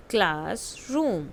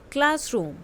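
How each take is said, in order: First: "classroom" drawn out slowly; slow model word. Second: Said in the usual way. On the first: Shown as a demonstration. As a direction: say it slowly for the kids to follow. (धीरे-धीरे, साफ़ "classroom") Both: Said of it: "listen to your teacher and say the following word".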